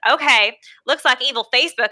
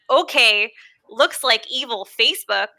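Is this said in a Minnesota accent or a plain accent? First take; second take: plain; Minnesota. First: It is spoken in a plain accent. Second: It is spoken in a Minnesota accent. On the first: The speaker calls it right. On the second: The speaker calls it wrong.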